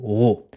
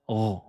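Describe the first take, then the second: First: The r is followed by a rounded o vowel. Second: A bare r sound with no rounded vowel. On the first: The speaker calls it wrong. "Attention à ne pas dire avancer les lèvres en disant ro" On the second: The speaker calls it right. "On prononce que le premier son qui sort de la lettre"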